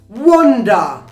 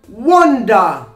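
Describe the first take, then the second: First: It is said with a British accent. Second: It is said with a British accent.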